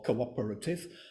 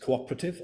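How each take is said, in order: First: The word is said with five syllables. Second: The word is said with four syllables. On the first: "it's either seven or eight uh, syllables" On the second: "it's either seven or eight uh, syllables"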